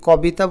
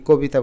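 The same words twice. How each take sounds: First: কবিতা as 'kaw-bi-ta'; spelling pronunciation. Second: কবিতা as 'ko-bi-ta'; rounded 'ko' starting কবিতা; natural pronunciation. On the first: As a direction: open অ in the ক of কবিতা. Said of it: "আমরা কি কবিতা বলি". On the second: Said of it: "ককে আমরা উচ্চারণ করি কোর মতো". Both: Shown as a demonstration.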